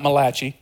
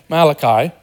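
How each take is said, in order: First: "Malachi" said as muh-LATCH-ee; wrong pronunciation. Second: "Malachi" said as MAL-uh-kye; correct pronunciation. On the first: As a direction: say "Malachi" with a ch sound and final ee. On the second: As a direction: say "Malachi" with a k sound, ending like eye. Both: Shown as a demonstration. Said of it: "not Malachi".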